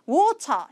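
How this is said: It is said in a British accent with a clear t. "이거는 이제 영국식 발음이고요"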